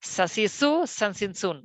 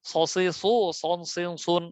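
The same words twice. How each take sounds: First: সা, সি, সু, সান, সিন, সুন light, lips spread; thin syllables. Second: স, সি, সু, সন, সিন, সুন thick and rounded, w-like glide; heavy syllables. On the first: Teacher contrasting two letters, thin pronunciation. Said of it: "ওটার সাথে এটাতে অনেক পার্থক্য". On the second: Teacher contrasting two letters, heavy pronunciation. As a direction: make স, সি, সু, সন, সিন, সুন full-mouthed. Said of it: "মোটা". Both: Shown as a demonstration.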